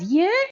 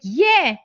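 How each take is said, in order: First: It sounds surprised. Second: It sounds warm and enthusiastic.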